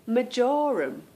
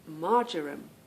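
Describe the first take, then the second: First: It is said with a British accent. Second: It is said with an American accent.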